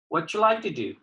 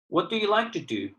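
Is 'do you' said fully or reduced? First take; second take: reduced; fully. First: The unstressed words are shortened and run together. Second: Each word is said fully and separately.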